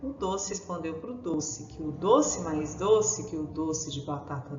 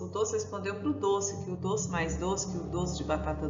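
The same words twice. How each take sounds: First: It is spoken very slowly. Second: It is spoken very fast. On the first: "Nós vamos ler o trava-língua bem devagarzinho" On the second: "Agora vamos falar depressa"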